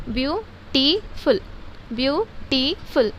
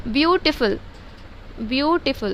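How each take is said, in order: First: beautiful slowly as view, टी, फुल; three separate syllables. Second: Said in the usual way. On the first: Shown as a demonstration. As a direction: pause after each part of beautiful. (Beautiful को तीन हिस्सों में धीरे-धीरे) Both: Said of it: "try syllable हो गया".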